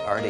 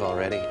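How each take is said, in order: First: The word is shortened to two syllables, arty. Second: The word is said fully with all three syllables. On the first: This is how people in Arkansas say it. "in Arkansas we say arty" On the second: This is the usual way to say it. "instead of already"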